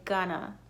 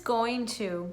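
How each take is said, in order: First: The words are reduced and blended into one. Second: Both words are said fully and separately. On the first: "a lot of times Americans tend to say gonna" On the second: "It is going to"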